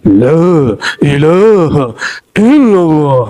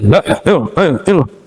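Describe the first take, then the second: First: It is said in a dramatic, stylised way. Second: It is said in an ordinary, plain way.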